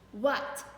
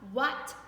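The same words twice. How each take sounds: Both takes have the same delivery.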